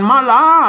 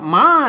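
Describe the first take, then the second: First: The word is said as two syllables. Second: The word is said as one syllable. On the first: The speaker calls it wrong. "ไม่ใช่อ่านมาลา" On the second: The speaker calls it right. "อ่านว่าม้า"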